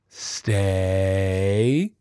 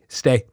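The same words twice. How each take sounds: First: The pitch dips and the voice sounds unsure. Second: The word is firm, flat and matter-of-fact. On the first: The owner seems scared the dog won't obey. The speaker calls it wrong. "Those are the dips. Dips sound so unconfident" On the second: The owner means the command. The speaker calls it right. "Be matter of fact"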